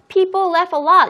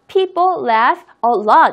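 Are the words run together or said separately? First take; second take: run together; separately. First: The words are linked smoothly together. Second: Each word is said separately with breaks. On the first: The speaker calls it right. "이렇게 이야기했죠" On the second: The speaker calls it wrong. "이렇게 하지 않았습니다"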